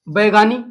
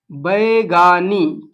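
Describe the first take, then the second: First: Said in the usual way. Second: Baigani stretched out very slowly, each syllable drawn long; Baigani spoken slowly and clearly for class; slow drilled answer. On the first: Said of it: "क्या बोलते हैं?". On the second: Shown as a demonstration. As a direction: drag out Baigani so students catch it. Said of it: "क्या बोलते हैं बैगा लोग?".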